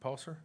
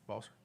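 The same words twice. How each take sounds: First: "Paulser" said with a P sound at the start, as a question; "Paulser" tried with a P start and a rising tone; tentative pronunciation. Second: "Balser" said with a B sound at the start, as a question; "Balser" tried again with a B start; tentative pronunciation. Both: Shown as a demonstration. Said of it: "is that Balser?".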